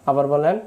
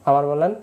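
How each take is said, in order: Both takes have the same delivery.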